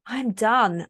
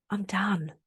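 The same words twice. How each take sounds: First: "done" landed firmly with a falling finish; firm declaration. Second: Breathy whisper, letting go; whispered resolve. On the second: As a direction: whisper it to yourself, finally finished. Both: Real, not acted. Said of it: "I am so done with all of that".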